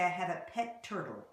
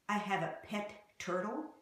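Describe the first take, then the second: First: The two T sounds merge into one. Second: Both T sounds are pronounced separately. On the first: The speaker calls it right. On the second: The speaker calls it wrong.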